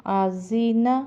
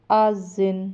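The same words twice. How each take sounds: First: آزینہ read through, open vowel at the end; full-vowel reading of آزینہ; joined reading. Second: آزن cut to a closing n, final vowel dropped; pausal reading. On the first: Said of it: "آگے وقف آزن". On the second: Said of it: "آگے وقف". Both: Shown as a demonstration.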